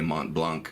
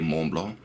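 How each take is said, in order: First: It is said with an American pronunciation. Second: It is said with a French pronunciation. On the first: "myself being an American living in America" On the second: "if you prefer to say Mont Blanc"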